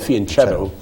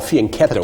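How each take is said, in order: First: The ch is pronounced the American English way. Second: The ch is pronounced the Italian way. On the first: The speaker calls it wrong. "most of us in, in, in the United States call it fianchetto because we don't know how to pronounce the C H in Italian" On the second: The speaker calls it right. "It actually is properly called fianchetto"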